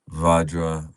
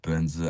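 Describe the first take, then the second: First: It is pronounced with a v and j sound. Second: It is pronounced with a b and z sound. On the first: This is the original Sanskrit form. "the Sanskrit word Vajra" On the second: This is the later Tibetan form. "turned into Tibetan word Benza"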